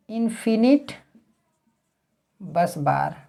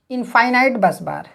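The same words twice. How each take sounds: First: इनफिनिट said in-fi-nit, short i sounds; "fi-nit" pronunciation. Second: इनफाइनाइट said in-fy-nite, long i twice; "fy-nite" pronunciation. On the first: Teacher showing students the other variant, इनफिनिट said as in-fi-nit. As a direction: pronounce इनफिनिट with short "fin-it", spaced from what follows. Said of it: "कुछ लोग इनफिनिट बोलते हैं". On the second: Teacher showing students one common variant, इनफाइनाइट said as in-fy-nite. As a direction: pronounce इनफाइनाइट with "fine" and "night" sounds. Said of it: "कुछ लोग जो है इनफाइनाइट बोलते हैं". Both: Shown as a demonstration.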